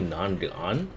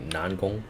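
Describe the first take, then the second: First: The last syllable sounds like 'gan'. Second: The last syllable sounds like 'gong'. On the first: The speaker calls it wrong. "some say Nangan, which is wrong" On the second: The speaker calls it right. "It's supposed to be Nangong"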